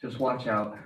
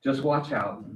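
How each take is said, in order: First: Talking around gum; words blurred by gum; chewing gum. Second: Just watch out said louder and higher; louder retake. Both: Real, not acted. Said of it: "I have gum in my mouth".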